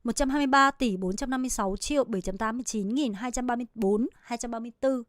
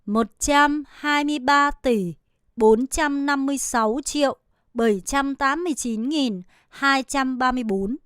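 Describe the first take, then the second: First: Quick, smooth, softer read of the full number; fluent speed reading. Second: Careful slow Vietnamese number read; slow practice read of the whole number. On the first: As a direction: rattle it off at native speed. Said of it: "이 정도 속도로는 읽으셔야 합니다". (원어민 속도로 빠르게 술술) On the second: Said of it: "다시 한 번만 읽어볼게요". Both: Shown as a demonstration.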